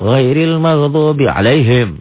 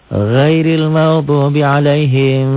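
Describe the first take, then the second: First: The final m is cut off with a jerk. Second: The final m is held and prolonged. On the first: "Ada juga yang dihentak" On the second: "Jangan ditahan"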